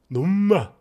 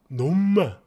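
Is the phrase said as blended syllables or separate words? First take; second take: blended; blended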